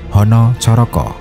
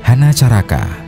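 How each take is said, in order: First: The vowels are pronounced as rounded 'o' sounds. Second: The vowels are pronounced as open 'a' sounds.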